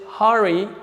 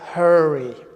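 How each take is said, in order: First: The first vowel is short and clipped. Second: The first vowel is long, not short. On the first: The speaker calls it right. "We pronounce it hurry" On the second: The speaker calls it wrong. "We don't pronounce it hurry"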